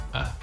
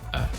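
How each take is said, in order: First: The word is said as a short weak vowel. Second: The same.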